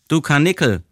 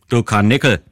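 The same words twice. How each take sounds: First: It sounds soft and tender. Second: It sounds harsh and insulting. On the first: The listener is being shown affection. "zärtlich" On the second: The listener is being insulted. "so wie meine Tante es sagte, war es eine Beleidigung"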